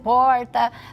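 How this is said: It has a countryside interior accent.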